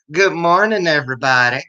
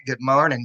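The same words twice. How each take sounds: First: A practiced Southern accent, a touch higher. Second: Said in the usual way. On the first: Shown as a demonstration. Host greets livestream viewers, trying her Southern accent. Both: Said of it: "That's my Southern accent I'm practicing".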